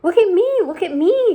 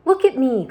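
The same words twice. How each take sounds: First: High, loud gleeful shout; excited shout. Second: High, loud gleeful cry; excited cry. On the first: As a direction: show off to everyone. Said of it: "shouted the centipede excitedly". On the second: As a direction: show off his freedom. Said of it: "cried the centipede". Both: A narrator's reading.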